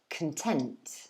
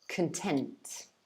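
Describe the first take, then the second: First: The stress is on the second syllable. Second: The same.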